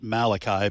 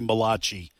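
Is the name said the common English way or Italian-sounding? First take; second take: English; Italian. First: The name is said the common English way. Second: The name is said with an Italian-sounding pronunciation. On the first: The speaker calls it wrong. "Most people pronounce it Malachi" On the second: The speaker calls it right. "it's actually Malachi. And it's the first Italian prophet"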